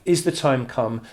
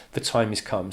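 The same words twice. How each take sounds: First: Asked, higher and louder; questioning. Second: Stated evenly as an answer; asserting. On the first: Reading the poem's dialogue as the one asking, questioning. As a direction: put it as an urgent question. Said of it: "one of them is asking". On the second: Reading the poem's dialogue as the one answering, asserting. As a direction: answer it as a settled fact. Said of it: "the other is saying". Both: Acted.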